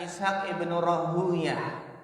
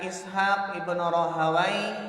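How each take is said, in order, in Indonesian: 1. Nama belakangnya diucapkan Rahuyah. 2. Nama belakangnya diucapkan Rahawai. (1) "ada pula yang membaca Ishaq ibn Rahuyah" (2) "ada yang membaca Ishaq ibn Rahawai"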